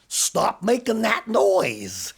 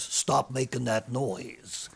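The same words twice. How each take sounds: First: Stern teacher. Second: Stern principal. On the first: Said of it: "Teacher looked at him and said". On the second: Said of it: "He looks at the teacher and says". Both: Acted.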